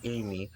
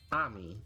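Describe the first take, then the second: First: The name is said the English way, like Amy. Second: The name is said the Japanese way, like Ami. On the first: This is the intended form of the name. "I think it's supposed to be Amy" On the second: This is how anime viewers say the name. "they pronounce it as Ami"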